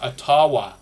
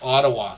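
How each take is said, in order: First: It is said in an older, original way. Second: It is said the usual everyday way.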